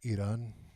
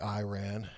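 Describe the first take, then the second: First: Iran is said with the local vowel pronunciation. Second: Iran is said with an American pronunciation. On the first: This is the pronunciation the speaker rejects. The speaker calls it wrong. "not Iran ... the way you pronounce vowels" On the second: The speaker refuses to adopt the foreign pronunciation. The speaker calls it right. "I'm a God-fearing American. I'm allowed to say Iran"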